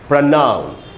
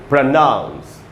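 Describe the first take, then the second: First: The stress is on the second syllable. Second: The same.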